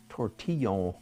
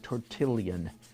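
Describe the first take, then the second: First: The double L is said as a Y sound. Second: The double L is said as an L sound. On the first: "the double L might be pronounced like a, a Y" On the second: "an American would pronounce it, or I would pronounce it tortillon"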